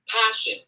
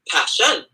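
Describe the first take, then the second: First: The first syllable is long and stressed. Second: The second syllable is long and stressed. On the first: The speaker calls it right. "it's long short" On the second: The speaker calls it wrong. "if you create something that's unnatural there"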